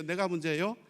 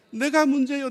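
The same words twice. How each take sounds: First: Said in the usual way. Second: 내가 문제예요 declared high and very loud; emphatic answer. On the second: Shown as a demonstration. Preacher answering own question, 내가 문제예요 loud and emphatic. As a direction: hit 내가 문제예요 loudly as a firm admission.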